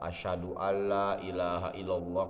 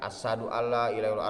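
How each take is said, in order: First: The first word has a spread 'sh' sound. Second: The first word has a plain 's' sound. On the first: The speaker calls it right. "asyhadu ada sifat tafasinya" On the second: The speaker calls it wrong. "bukan asadu alla ilaha illallah, artinya harimau macan"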